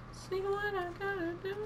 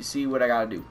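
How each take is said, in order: First: Tiny, very high falsetto echo; Chris Denker. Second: Said in the usual way. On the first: Pretend. Player echoing himself for fun, soft high falsetto. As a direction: squeak it softly in a thin, high voice. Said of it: "I'm sounding a lot like Chris Denker".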